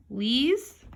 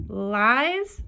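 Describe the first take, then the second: First: LEES with an "ee" vowel, "leez"; long E. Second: LIES with an "eye" vowel; long I. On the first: Teacher testing long E on a card, LEES said "leez". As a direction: blend LEES to rhyme with bees. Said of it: "the long E sound first". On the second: Teacher trying the other vowel, LIES said with long I. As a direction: blend LIES to rhyme with pies. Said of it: "try it the other way". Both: Shown as a demonstration.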